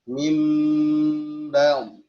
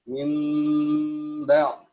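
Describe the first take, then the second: First: The lips close softly together on the m. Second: The same.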